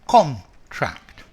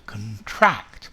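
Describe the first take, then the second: First: The stress is on the first syllable. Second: The stress is on the second syllable. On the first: It is a noun. "as a noun, a contract" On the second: It is a verb. "as a verb, the stress is on the second part"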